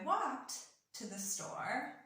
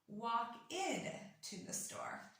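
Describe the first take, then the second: First: The word walked ends in a short t sound. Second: The word walked ends in an extra id syllable. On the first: The speaker calls it right. "almost with a T sound at the end" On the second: The speaker calls it wrong. "this ed is actually pronounced id"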